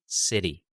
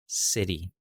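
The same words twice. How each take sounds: First: The T is a quick flap like D. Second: The T is a quick flap like D.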